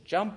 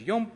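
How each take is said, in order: First: The word begins with a j sound. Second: The word begins with a y sound. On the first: "Same word. Different tongue" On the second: "Different tongue, different inflection"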